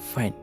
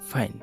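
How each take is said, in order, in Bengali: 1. f উচ্চারণ জোরালো, কণ্ঠস্বর চিকন। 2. f উচ্চারণ জোরালো, কণ্ঠস্বর চিকন।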